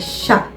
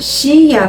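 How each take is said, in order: First: It is said as one merged syllable, sha. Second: It is said as two separate syllables, shi-a. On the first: The speaker calls it right. "É chá" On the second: The speaker calls it wrong. "A gente não vai pronunciar Shia"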